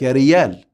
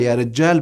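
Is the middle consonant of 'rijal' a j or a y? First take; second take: y; j. First: The middle consonant is a y sound. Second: The middle consonant is a j sound. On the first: The speaker calls it wrong. "حرف الجيم يتحول لياء" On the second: The speaker calls it right. "بدل"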